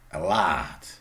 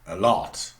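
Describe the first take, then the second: First: The vowel is an open unrounded 'ah'. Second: The vowel is a short rounded 'o'.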